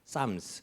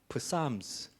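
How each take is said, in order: First: The word begins with an S sound, P silent. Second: The word begins with an audible P sound. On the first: The speaker calls it right. "앞에 P가 있지만은 묵음이죠. 그래서 쌈스라 합니다" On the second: The speaker calls it wrong. "프삼스라 합니까?"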